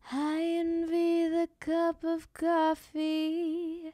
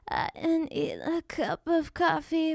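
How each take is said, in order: First: The voice is breathy and smooth. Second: The voice is creaky and broken up.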